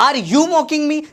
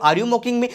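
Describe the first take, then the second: First: "Are you mocking me" pitched high, drawn on YOU; acted challenge. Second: Said in the usual way. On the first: Teacher acts out an offended question. (ऊँचे सुर में सवालिया चुनौती)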